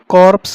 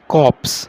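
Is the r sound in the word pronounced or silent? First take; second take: pronounced; silent. First: The r sound is pronounced in the word. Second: The r sound is left silent in the word. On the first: The speaker calls it wrong. "कॉर्प्स नहीं बोलेंगे" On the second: The speaker calls it right. "आर silent वे में होगा"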